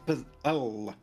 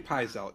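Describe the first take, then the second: First: The L sound is held and hit firmly. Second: The L sound is short and light. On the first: The speaker calls it right. "you should hit the L because it, like it's a double L" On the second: The speaker calls it wrong. "if you say pizel, you're wrong"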